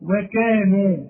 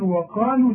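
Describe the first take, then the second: First: "وكانوا" with a clear kaf; correct reading. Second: "وقالوا" with qaf instead of kaf; mock the misread qaf; wrong reading. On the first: Shown as a demonstration. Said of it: "مكتوبة إيه". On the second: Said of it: "وده خطأ".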